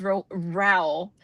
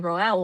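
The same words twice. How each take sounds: First: "Rowell" said "rowl" after a false start; Rowell like towel. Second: "Rowell" said "roh-EL", in two syllables. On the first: Shown as a demonstration. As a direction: make "Rowell" rhyme with "towel". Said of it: "say, like, towel". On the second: Retold or imitated. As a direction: sound out "Rowell" as roh plus el. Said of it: "I kept hearing Chloe saying Rowell".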